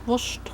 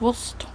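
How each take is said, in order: First: It is said in a Swabian dialect. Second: It is said in standard German. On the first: "When I grew up in Schwabenland, ... we said" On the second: "instead of"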